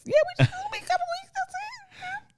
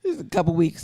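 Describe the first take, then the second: First: High, fast rapper impression; [name] voice. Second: Said in the usual way. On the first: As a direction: pitch it way up like a rapper. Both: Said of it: "[name] voice".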